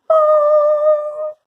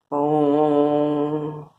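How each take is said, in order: First: It is said in a high, thin voice. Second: It is said in a low, deep voice.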